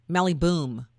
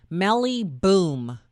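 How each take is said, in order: First: Said in the usual way. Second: "Melly Boom" stretched very slowly with a mocking fall; mockingly drawn-out name. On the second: Shown as a demonstration. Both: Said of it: "how's that for a name".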